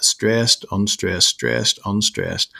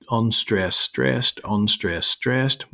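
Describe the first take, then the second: First: "stressed" first, "unstressed" dropping after it; trochaic stress pattern. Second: "unstressed" lighter, "stressed" lifted, alternating evenly; rising rhythm, each "stressed" lifted after a weaker "unstressed"; iambic stress pattern. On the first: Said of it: "With trochee, you've got". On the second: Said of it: "an iamb is that". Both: Shown as a demonstration.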